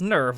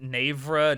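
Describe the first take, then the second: First: The word is said as one syllable. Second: The word is said as two syllables. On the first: The speaker calls it right. "It's supposed to be pronounced nerve" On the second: The speaker calls it wrong. "I've seen clips of people pronouncing it navra"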